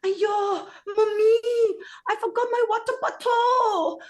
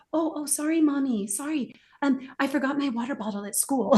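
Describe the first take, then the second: First: High, loud imitation of a three-year-old in Singapore English; daughter's Singapore English. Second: Put-on higher, careful little girl switching to proper English; a lightly voiced daughter apologizing; daughter's apologetic correction. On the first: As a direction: squeal it like a toddler copying her friends. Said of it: "walks in and says". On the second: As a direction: sound sorry and correct yourself. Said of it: "And she goes".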